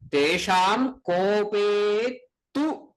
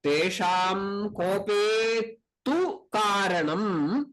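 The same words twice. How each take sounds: First: Very slow, leaning hard on "tu" with a rising pitch; "Tesham kope tu" dragged out, "tu" stretched and raised; stress on tu. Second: Chanted, slow, measured Sanskrit recitation of the verse line; chanted, drawn-out recitation with tu rising. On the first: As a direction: hold and lift the word "tu" to show the emphasis. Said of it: "that tu gives the stress". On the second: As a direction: chant it slowly and evenly, like a scripture verse. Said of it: "What is that?". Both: Shown as a demonstration.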